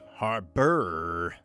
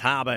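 First: It is said in a standard accent, with the R. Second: It is said in a Boston accent, without the R.

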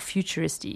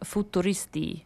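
First: The word is said with an English accent. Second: The word is said with an Italian accent.

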